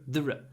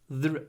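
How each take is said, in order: Both takes have the same delivery.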